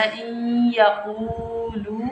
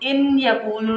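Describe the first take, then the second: First: "इन यकूलु" slow, n merged into a long nasal y; ghunna on ya. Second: "इन यकूलु" with a separate clear n before y; unmerged noon. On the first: Teacher showing correct reading, held nasal glide in "इन यकूलु". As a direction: draw "इन यकूलु" out through the nose. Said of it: "हमने पढ़ना". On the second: Teacher showing what not to read, clear n in "इन यकूलु". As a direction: sound the n fully in "इन यकूलु". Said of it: "नहीं पढ़ना". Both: Shown as a demonstration.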